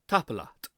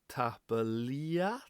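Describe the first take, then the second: First: The last vowel is a single short sound. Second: The last vowel is a long drawn-out glide. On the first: The speaker calls it right. "No, very short" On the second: The speaker calls it wrong. "people see E A and they think ia"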